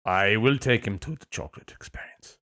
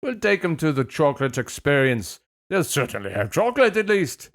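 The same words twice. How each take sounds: First: Lower, measured mock-British line; deliberate put-on British accent; really British accent. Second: Failed Scottish turned very British; lilting mock-British parent; really British accent. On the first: Shown as a demonstration. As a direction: lean into a British accent, pitched down. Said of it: "that was really British". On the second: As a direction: badly fake Scottish, landing in British. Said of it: "Wow, that was really British".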